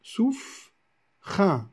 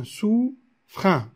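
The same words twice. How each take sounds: First: "souffrin" with the R tied straight onto the U; "souffrin", le R attaché au U; poetic linking. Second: "souffrin" said again slowly, the E dropped; slow repeated linking. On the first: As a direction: say "souffrin", dropping the E. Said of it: "Alors on va dire souffrin". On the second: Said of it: "ou bien souffrin". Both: Shown as a demonstration.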